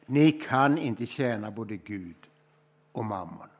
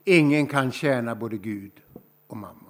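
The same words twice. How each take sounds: First: Slow, measured first take of "Ni kan inte tjäna både Gud och mammon"; unhurried reading with the words dropping away at the end; slow scripture reading. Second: "Ingen" hit louder, the rest falling away; emphatic repeat leaning on "Ingen"; stress on Ingen. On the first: Acted. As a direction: lay it down slowly as a quotation. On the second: Shown as a demonstration. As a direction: push the word "Ingen" hard, then let "mammon" drop. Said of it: "Det är en tuff text".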